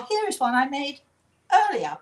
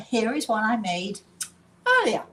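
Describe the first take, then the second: First: TV chef catchphrase. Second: Playing TV chef. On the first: Retold or imitated. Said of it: "and the person says". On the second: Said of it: "So, are you ready?".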